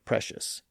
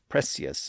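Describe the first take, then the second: First: The middle consonant is a sh sound. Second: The middle consonant is a plain s sound. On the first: This is the modern pronunciation. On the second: This is the older pronunciation from the fifteen hundreds.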